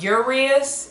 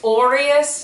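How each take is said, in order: First: The name begins with an 'oo' vowel. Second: The name begins with an 'oh' vowel. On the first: The speaker calls it wrong. "not Urias" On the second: The speaker calls it right. "it's Orias"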